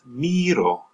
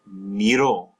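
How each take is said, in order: First: Miro stressed high on the first syllable, MEE-ro. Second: Miro said as mee-ROH, weight on the last syllable; stress on the O. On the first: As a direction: punch MI in miro, let ro fall. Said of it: "stress placed on the letter I". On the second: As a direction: push down on the final o of miro. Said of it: "you stress the O". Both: Shown as a demonstration.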